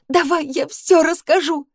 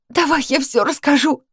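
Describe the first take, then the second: First: Sobbing, even higher. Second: High, strained voice breaking with sobs; choking sobs. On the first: Girl repeating her plea through tears, higher still. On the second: Girl sobbing at Danil, high and choked. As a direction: force it out through tears. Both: Acted. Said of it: "захлёбываясь рыданиями, просипела я".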